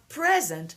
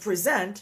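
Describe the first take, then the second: First: The stress is on the first syllable. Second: The stress is on the second syllable. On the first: It is the noun meaning a gift or now. "n'est pas le mot présent" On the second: It is the verb meaning to present. "Le verbe pres, present n'est pas present"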